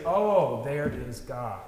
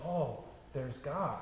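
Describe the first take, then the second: First: A lifted "Oh" of mild amazement; sudden recognition. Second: Soft, slow, offhand mumble; unimpressed murmur. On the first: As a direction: catch your breath at a wonder. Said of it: "instantly we say". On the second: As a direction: say it as if nothing special happened. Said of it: "none of us picks up a cup of wine and says". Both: Retold or imitated.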